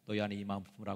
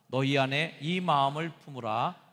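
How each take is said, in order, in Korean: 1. 아주 빠르게, 단어를 서둘러 읽었어요. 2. 보통 속도로, 서두르지 않고 읽었어요.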